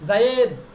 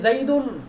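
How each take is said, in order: First: The name ends on a bare consonant. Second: The name ends with an added -un sound. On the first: The speaker calls it right. "শেষে জজম হচ্ছে জায়েদ" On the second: The speaker calls it wrong. "আমি কি তাকে তানবিন দিয়ে বলেছি, বলি নাই"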